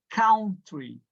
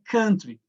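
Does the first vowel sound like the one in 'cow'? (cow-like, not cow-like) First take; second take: cow-like; not cow-like. First: The first vowel sounds like the one in cow. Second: The first vowel does not sound like cow. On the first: The speaker calls it wrong. "não é country" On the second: The speaker calls it right. "Esse aqui é country"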